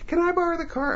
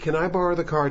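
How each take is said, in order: First: It is said in a high, cartoonish put-on voice. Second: It is said in the speaker's normal voice. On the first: The speaker calls it wrong. "nothing as cartoonish as" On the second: The speaker calls it right. "I did not do a female voice. I did the emotional intention of the line"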